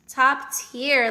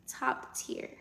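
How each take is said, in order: First: Louder emphatic top tier. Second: Whispered top tier; whispering. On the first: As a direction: say it out boldly. Repeats the phrase loud. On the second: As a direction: breathe it out without voice. Repeats the phrase hushed, then loud. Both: Real, not acted.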